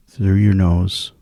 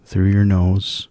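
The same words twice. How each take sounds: The two takes are said the same way.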